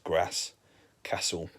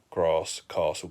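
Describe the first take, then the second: First: It is said in the local accent up there. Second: It is said in a London accent.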